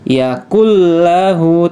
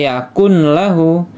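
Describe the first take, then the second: First: The n merges into the following l. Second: The n is pronounced before the l. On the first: The speaker calls it right. "langsung masuk ke huruf lamnya" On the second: The speaker calls it wrong.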